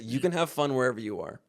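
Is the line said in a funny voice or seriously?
serious. It is said in a plain, serious tone. The sentiment is sincerely meant. "You mean it like a serious?"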